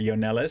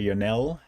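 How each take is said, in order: First: The name ends with an audible s sound. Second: The name ends without any s sound.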